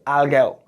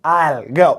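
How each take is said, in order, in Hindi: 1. 'I will' दो पूरे शब्दों की तरह बोला जाता है। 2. 'I will' छोटा होकर एक सिलेबल 'I'll' बन जाता है।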